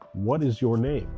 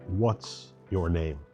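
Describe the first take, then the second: First: Both words of 'what is' are said in full. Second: 'What is' is contracted into one syllable. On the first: It sounds formal and a little stiff. "This is technically correct. It just seems a little stiff" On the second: It sounds common and everyday. "The more common version of this is using the contraction"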